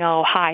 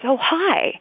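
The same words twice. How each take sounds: First: The greeting sounds flat and offhand. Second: The greeting sounds warm and welcoming. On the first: The person is barely acknowledged. The speaker calls it wrong. "instead of saying" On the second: The person is really greeted. The speaker calls it right. "kind of really greeting the person, it sets a much warmer tone"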